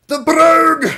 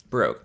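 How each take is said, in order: First: Brogue shouted high and loud with a Scottish roll. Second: Said in the usual way. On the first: Shown as a demonstration. Streamer belts the word in a high, loud Scottish accent. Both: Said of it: "the Scottish brogue".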